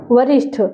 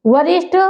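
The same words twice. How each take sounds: First: वरिष्ठ ending in aspirated ठ, as varishṭh; वरिष्ठ closed on ठ; ठ form. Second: वरिष्ठ ending in plain ट, as varishṭ; rising वरिष्ठ with bare ट; ट form. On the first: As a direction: puff the end of वरिष्ठ. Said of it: "और कहाँ पे ठा". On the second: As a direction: lift the end of वरिष्ठ, no puff. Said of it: "कहाँ पे टा लगना है". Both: Shown as a demonstration.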